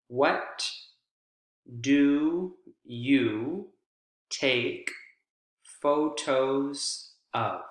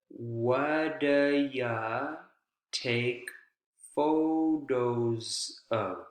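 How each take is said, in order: First: The words are said separately, one by one. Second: The words are run together smoothly.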